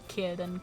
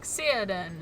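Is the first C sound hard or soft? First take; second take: hard; soft. First: The first C is a hard k sound. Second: The first C is a soft s sound. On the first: The speaker calls it right. "it's always a hard C" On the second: The speaker calls it wrong. "thinking it was a soft C"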